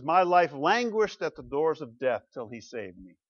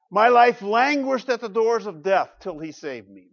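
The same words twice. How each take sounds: First: Said in the usual way. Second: Loud, higher scripture reading; dramatic reading. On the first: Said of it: "The psalmist confesses". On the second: Shown as a demonstration. Pastor reading the psalm aloud to the church, dramatic. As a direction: read it with weight. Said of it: "Verses three and four".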